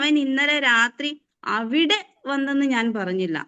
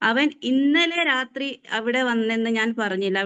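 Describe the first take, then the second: First: The word അവിടെ carries the stress. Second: The word ഇന്നലെ carries the stress. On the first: He goes to other places, not there. "അവിടെ വന്നില്ല എന്ന് ഞാൻ പറഞ്ഞുള്ളൂ, വേറെ എവിടെയൊക്കെയോ വരാറുണ്ട്" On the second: He may have come on an earlier night. "ഇന്നലെ എന്ന് നമ്മൾ ഊന്നി പറയുമ്പോൾ"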